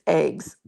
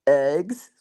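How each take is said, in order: First: EGGS with a long AY, like "aigs"; insistent own pronunciation. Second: EGGS echoed low with an exaggerated short vowel, questioning; mocking echo. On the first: Retold or imitated. Wife correcting husband, insistent family pronunciation. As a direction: insist on "eggs" as "ayggs", falling at the end. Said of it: "It's eggs". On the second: Wife echoing husband's version in disbelief, mocking pronunciation. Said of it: "I'm like".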